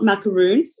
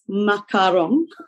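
First: The last syllable has a long 'oo' vowel. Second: The last syllable has a short 'o' vowel. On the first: The speaker calls it wrong. "It's not macaroons" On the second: The speaker calls it right. "it's macaron"

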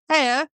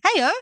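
First: It is said in a flat, emotionless tone. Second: It is said with lively, emotional intonation.

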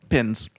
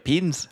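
First: The vowel is a plain short i. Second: The vowel is stretched toward a long ee. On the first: It sounds like an ordinary Australian. The speaker calls it right. "So just pins" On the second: It sounds like a New Zealander. The speaker calls it wrong. "The way that you're saying it is very like, it's too much"

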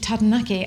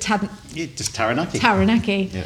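First: The word is said with a rolled R. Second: The word is said with a plain English R. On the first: The speaker calls it right. "it's actually Taranaki" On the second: The speaker calls it wrong. "always called it Taranaki. Because that's what everyone else calls it"

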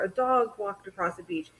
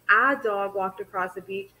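First: The first word 'a' is quiet and slurred. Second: The first word 'a' is loud and emphasized.

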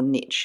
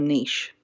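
First: It is said in an American accent. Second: It is said in a non-American accent.

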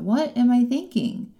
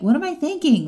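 First: It is asked in a curious, gentle tone. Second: It is asked in a judgmental, scolding tone.

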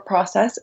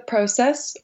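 First: It is said with an American pronunciation. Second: It is said with a British pronunciation.

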